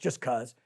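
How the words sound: The stress falls on the word just. It was done only because it could be.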